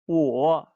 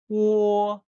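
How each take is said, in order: First: The pitch dips low, then comes back up. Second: The pitch stays high and level. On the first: "Now in the third tone" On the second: "So the first tone"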